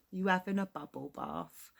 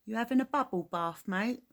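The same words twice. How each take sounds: First: Said in the usual way. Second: Quick, louder jab at a mate; cheeky Cockney banter. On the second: Shown as a demonstration. Englishman demoing slang to Americans, quick cheeky banter. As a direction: rattle it off like teasing a friend at the pub. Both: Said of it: "That's a Cockney rhyme for bath".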